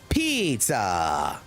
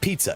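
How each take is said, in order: First: It is said in an exaggerated Italian accent. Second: It is said plainly, without exaggeration. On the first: The speaker calls it right. "Every word is over exaggerated" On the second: The speaker calls it wrong. "It's not pizza"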